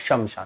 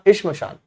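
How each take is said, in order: First: A short vowel separates the sh and m sounds. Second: The sh and m sounds join without a vowel. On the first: The speaker calls it wrong. "लेकिन हम लोग क्या बोलते हैं?" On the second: The speaker calls it right. "इश्मशान सही शब्द है"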